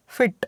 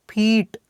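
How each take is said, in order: First: फिट with a short, quick i; short vowel. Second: फीट with a long, held ee; long vowel. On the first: Teacher showing students the short sound in फिट, short vowel. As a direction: say फिट with a brief, clipped vowel. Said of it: "short sound है". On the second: Teacher showing students the long sound in फीट, long vowel. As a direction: stretch the ee in फीट. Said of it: "इसका sound long है". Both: Shown as a demonstration.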